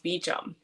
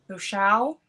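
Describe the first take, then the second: First: The name is said with an English pronunciation. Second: The name is said with a French pronunciation. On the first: "the English pronunciation is" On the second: "I'm gonna try to pronounce it right"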